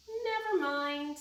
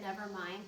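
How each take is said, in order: First: Cat saying never mind. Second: Said in the usual way. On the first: Acted. Cat's line in the story.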